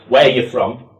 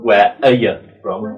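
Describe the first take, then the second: First: The word 'are' is left out. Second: The word 'are' is clearly pronounced. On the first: "some people were leaving out this" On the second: "without the"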